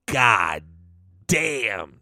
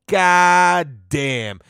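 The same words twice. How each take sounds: First: Low, drawn-out God then damn with a pause; admiring god damn. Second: God damn tossed off at normal pitch, both words together; quick god damn. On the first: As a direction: savour it like you've just seen her picture. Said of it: "and you go". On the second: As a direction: say it quickly, like a passing remark. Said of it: "You know what I mean?". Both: Retold or imitated.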